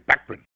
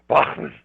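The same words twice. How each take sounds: First: The name is said the English way. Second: The name is said the German way. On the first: "In England, they say Bachman" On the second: "In Germany, they say Bachman"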